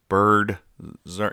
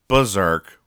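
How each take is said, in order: First: The first syllable sounds like the word bird. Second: The first syllable sounds like a plain ber. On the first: It puns on the word birds. "It's berserk because they are birds" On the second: It means acting wildly crazy. "instead of berserk, which means they go and acting all crazy"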